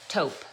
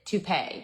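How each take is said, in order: First: The word is said as one syllable. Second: The word is said as two syllables. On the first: The speaker calls it right. "You say it taupe" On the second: The speaker calls it wrong. "He pronounced it toupee"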